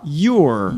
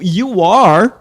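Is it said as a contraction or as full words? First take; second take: contraction; full words. First: The two words merge into one syllable. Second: Two full words are said separately.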